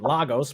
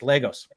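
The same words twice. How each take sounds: First: The name is said with an American pronunciation. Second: The name is said with the local Nigerian pronunciation. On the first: The speaker calls it wrong. "I was calling it Lagos because I'm from the west coast of the United States" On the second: The speaker calls it right. "she told me no, it's Lagos"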